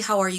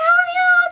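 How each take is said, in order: First: It is said in a neutral, ordinary tone. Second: It is said in an excited, happy tone.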